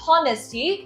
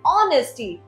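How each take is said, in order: First: The word starts with an h sound. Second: The word starts with a vowel, no h. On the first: The speaker calls it wrong. "No it's not हॉनेस्टी" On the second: The speaker calls it right. "ये है ऑनेस्टी"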